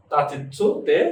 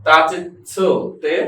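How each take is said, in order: First: Said in the usual way. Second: তাচিৎসু তে stretched out very slowly, every syllable even; slow model pronunciation; slow, careful pronunciation. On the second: Shown as a demonstration. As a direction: drag out তাচিৎসু তে for students to copy. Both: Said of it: "উচ্চারণটা কি?".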